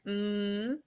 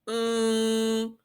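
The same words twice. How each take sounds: First: It is made with the lips closed. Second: It is made with the mouth open. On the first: The speaker calls it right. "I have to have my lips closed in order to make the mm sound" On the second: The speaker calls it wrong. "try to make the mm sound without closing your mouth"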